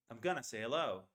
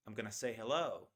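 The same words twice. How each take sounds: First: "gonna" said as "kunna"; gonna reduction. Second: "gonna" again as "kunna"; gonna reduction. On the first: Teacher showing "going to" becomes "gonna". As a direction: say "I'm gonna say hello" with "gonna" squeezed. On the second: Teacher repeating the "gonna" example. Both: Shown as a demonstration. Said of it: "so it becomes gonna".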